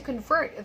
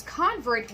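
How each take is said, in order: First: Convert as a verb, con-VERT; stress on second syllable. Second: Convert as a noun, CON-vert; stress on first syllable. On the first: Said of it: "the second one is a verb". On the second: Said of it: "the first one is a noun". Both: Shown as a demonstration.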